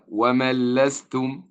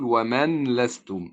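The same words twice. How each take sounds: First: The n merges fully into the following l. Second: The n is pronounced separately before the l. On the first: The speaker calls it right. "وتنطق هكذا" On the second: The speaker calls it wrong. "الخطأ أن أقول ومن لستم، فيها ثقل"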